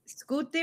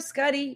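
First: The name is said with an Italian pronunciation. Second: The name is said with an American pronunciation. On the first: "but Italian Scutti" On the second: "The Scuddy is the Jersey version"

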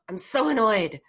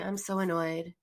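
First: It is said with strong, felt emotion. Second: It is said flatly, without emotion. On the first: The feeling is actually felt. The speaker calls it right. "You want to really say, oh" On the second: The feeling is only thought about. The speaker calls it wrong. "you're thinking it and you can't think away your feelings"

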